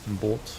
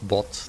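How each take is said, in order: First: The vowel is a long 'oh' sound. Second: The vowel is a short 'o' sound. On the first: The speaker calls it right. "You say boat" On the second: The speaker calls it wrong. "It's not bot"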